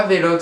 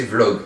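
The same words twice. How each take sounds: First: Vlog with an added é, "vé-log"; mispronounced Vlog. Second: Vlog as one syllable, v running into l; corrected Vlog. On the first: Vlogger correcting his own pronunciation, Vlog said "vé-log". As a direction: say Vlog in two syllables, vé-log. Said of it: "c'est Vlog". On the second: Vlogger correcting himself, Vlog said in one syllable. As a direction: say Vlog with no é after the v. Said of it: "c'est pas Vlog". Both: Shown as a demonstration.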